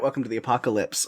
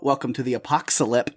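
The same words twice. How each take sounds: First: Said in the usual way. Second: "Apocalypse" slipped into "a-pox-a-lip"; stumble, putting an extra s in "Apocalypse"; mispronounced title. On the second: Real, not acted. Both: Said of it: "no, uh, if you haven't checked out".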